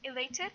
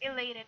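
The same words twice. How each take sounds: First: It is said in a British accent. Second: It is said in a non-British accent. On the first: "when you pronounce it in the British accent" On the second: "but in this case"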